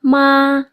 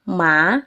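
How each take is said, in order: First: The pitch stays high and level. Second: The pitch rises from middle to high. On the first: "Nada pertama bacanya itu nada datar ya. Ma, tinggi datar" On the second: "dari ketinggian yang rendah terus naik ke tinggi ya"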